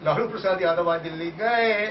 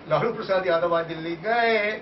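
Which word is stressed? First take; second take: gaye; gaye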